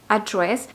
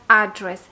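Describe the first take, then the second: First: The stress is on the second syllable. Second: The stress is on the first syllable. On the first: It is used as a verb. "con el énfasis en la segunda sílaba" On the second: It is used as a noun. "utilizada esta palabra como un sustantivo sería address"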